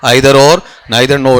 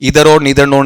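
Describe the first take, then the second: First: The first vowels sound like 'eye'. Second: The first vowels sound like 'ee'. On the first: The speaker calls it right. "आइदर और नाइदर नोर है।" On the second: The speaker calls it wrong. "इधर और नीदर नोर नहीं है"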